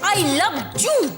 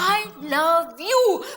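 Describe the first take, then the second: First: 'You' is said starting with a j sound. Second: 'You' is said starting with a y sound. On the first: The speaker calls it wrong. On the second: The speaker calls it right.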